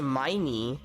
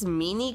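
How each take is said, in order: First: The first vowel sounds like 'eye'. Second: The first vowel sounds like 'ih'. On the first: "I always assumed that it was a Miney" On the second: "I guess Minnie could work, like Minnie Mouse"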